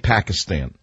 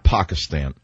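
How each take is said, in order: First: The word is said with an American pronunciation. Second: The word is said with a non-American pronunciation. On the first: It is the way ordinary Americans say it. The speaker calls it right. "Americans say Pakistan" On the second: It sounds too politically correct. The speaker calls it wrong. "not Pakistan"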